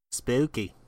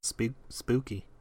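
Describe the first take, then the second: First: Eerie spooky voice. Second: Slow, eerie spooky voice. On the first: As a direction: say it like a ghost story. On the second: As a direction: draw it out like a ghost story. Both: Pretend. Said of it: "I don't know why I said that that way".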